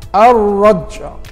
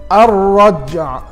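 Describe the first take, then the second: The two takes are said the same way.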